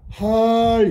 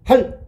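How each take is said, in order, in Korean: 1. 이 음절은 끝소리를 길게 늘여 발음한다. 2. 이 음절은 짧고 갑자기 끊어서 발음한다. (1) "길게 읽어야 되는 거야" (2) "짧게 읽으라"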